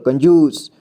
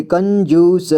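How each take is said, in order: First: Said in the usual way. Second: कंजूस drawn out piece by piece, final स voiced as "sa"; कंजूस as "kan-joo-sa" for a beginner; sounded out. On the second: Shown as a demonstration. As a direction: spell out कंजूस slowly by sound. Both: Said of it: "तो इसे पढ़ेंगे".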